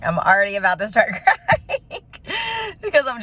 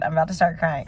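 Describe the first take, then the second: First: Laughing through tears. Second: Said in the usual way. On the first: Real, not acted. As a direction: voice rising into a teary laugh, a little higher.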